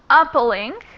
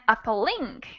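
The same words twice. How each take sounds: First: The stress is on the first syllable. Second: The stress is on the third syllable.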